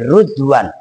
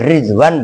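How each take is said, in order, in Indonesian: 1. Vokal pertama adalah bunyi 'u'. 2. Vokal pertama adalah bunyi 'i'. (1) "boleh dibaca rud ... wa dhammiha" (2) "boleh dibaca rid ... bi kasri ra'i"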